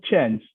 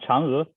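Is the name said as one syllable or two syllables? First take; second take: one syllable; two syllables. First: The name is said as one syllable. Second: The name is said as two syllables. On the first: The speaker calls it wrong. "it's not changed" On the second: The speaker calls it right. "but Chang'e"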